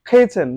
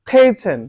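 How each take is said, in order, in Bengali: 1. প্রথম k-তে একটা জোরালো বাতাসের ঝলক আছে। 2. প্রথম k-তে একটা জোরালো বাতাসের ঝলক আছে।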